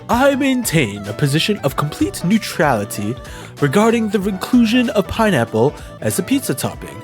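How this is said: It is said in a put-on character voice.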